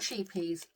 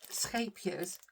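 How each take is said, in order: First: The name is said with an anglicized pronunciation. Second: The name is said with a Dutch pronunciation. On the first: The speaker calls it wrong. "A lot of people pronounce it as sheepies" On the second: The speaker calls it right. "I'm pronouncing it Escapiers because I live in the Netherlands"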